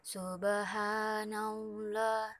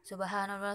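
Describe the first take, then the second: First: It is said calmly, without rushing. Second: It is said hurriedly, in a rush.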